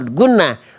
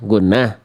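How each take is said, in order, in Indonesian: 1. Nadanya turun di akhir seperti pernyataan. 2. Nadanya naik di akhir seperti pertanyaan. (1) "nada jawab" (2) "Menjawab tapi nadanya pertanyaan"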